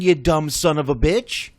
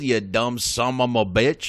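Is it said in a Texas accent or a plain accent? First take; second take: plain; Texas. First: It is said in the speaker's usual accent. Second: It is said in a Texas accent.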